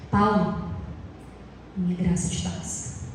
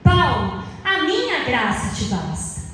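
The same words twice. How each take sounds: First: It is read in a flat, robotic tone. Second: It is read in a cheerful, lively tone. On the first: The speaker calls it wrong. "Você acha que foi assim mesmo?" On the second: The speaker calls it right. "mais alegre"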